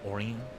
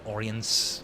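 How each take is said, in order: First: The final S sound is silent. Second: The final S sound is pronounced hard. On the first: The speaker calls it right. "I think it's supposed to be pronounced like Orient" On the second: The speaker calls it wrong. "with a hard S"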